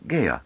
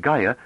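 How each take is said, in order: First: "Gaia" with a foreign AY diphthong; accented "Gaia". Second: Said in the usual way. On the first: Shown as a demonstration. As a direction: turn the first vowel of "Gaia" into "ay". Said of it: "her vowels tended to round into diphthongs". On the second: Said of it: "and Gaia like Gaia".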